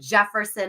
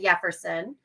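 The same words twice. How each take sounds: First: The name begins with an English J sound. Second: The name begins with a Spanish Y sound. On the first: Others mispronounce the name. The speaker calls it wrong. "They call him" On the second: This is how the owner says the name. The speaker calls it right. "instead of"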